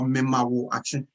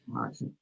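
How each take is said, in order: First: It is said in full as several words. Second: It is run together into one short word. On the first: "memawo action that we've cut it short" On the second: "we've cut it short and put it all together and say marching"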